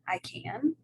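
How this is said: It is said with a questioning rise. The speaker asks about an ability. "a question"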